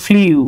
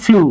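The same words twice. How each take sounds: First: ফ্লিউ said as "fliu", glide before the u; mock the common wrong ফ্লিউ; wrong pronunciation. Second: ফ্লু said as a single clean "flu"; correct pronunciation. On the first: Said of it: "তারা ভুল হয়ে গেছে". (ভুল উচ্চারণ ফ্লিউ, "ফ্লিউ" বলে) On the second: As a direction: say ফ্লু short, no i glide. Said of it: "আসলে এটার উচ্চারণ হচ্ছে". (সঠিক উচ্চারণ ফ্লু, একটানা "ফ্লু") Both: Shown as a demonstration.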